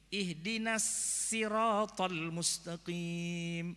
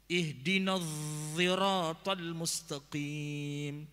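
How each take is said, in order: First: Siratal starts with a light, plain s sound. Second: Siratal starts with a voiced, z-like sound. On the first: "bacanya bukan sod, tapi sin" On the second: "Ada lagi yang bacanya dha"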